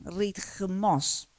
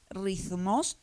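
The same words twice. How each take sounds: First: The consonant is a t with aspiration. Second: The consonant is not an aspirated t. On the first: This is the ancient Greek pronunciation. "era como una mezcla de T con aspiración" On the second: This is the modern Greek pronunciation. "en griego es ritmos actualmente"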